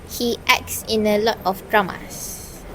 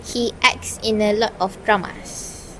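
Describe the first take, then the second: The two takes are said the same way.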